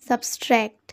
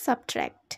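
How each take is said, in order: First: An extra s sound comes before the t. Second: No s sound comes before the t. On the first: The speaker calls it wrong. "এটা কিন্তু একটা ভুল উচ্চারণ" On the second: The speaker calls it right. "সঠিক উচ্চারণটাই"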